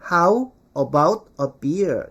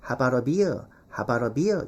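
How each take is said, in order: First: "how about a beer" slow, each word separate with full "ow" vowels; diligent full pronunciation. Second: "how about a beer" linked into "habara beer"; native reduced pronunciation. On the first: Teacher imitating Korean learners, diligent word-by-word pronunciation. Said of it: "이렇게 성실하게 발음 많이 하죠". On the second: Teacher showing how natives say it, linked and reduced. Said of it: "원어민들은 ... 이렇게 발음한다고". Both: Shown as a demonstration.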